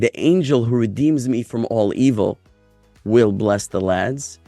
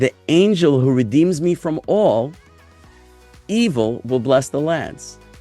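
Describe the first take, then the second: First: It flows with no break after 'all'. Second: It breaks after 'all', setting 'evil' apart. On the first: Nothing is set apart from any evil. The speaker calls it right. "Instead of saying" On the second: Evil is the one that will bless the lads. The speaker calls it wrong. "why are you breaking it up that way?"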